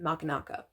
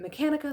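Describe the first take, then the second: First: The name does not begin like mechanic. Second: The name begins like the word mechanic. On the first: "some people pronounce it Machinaka" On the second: "some people pronounce it Mechanika"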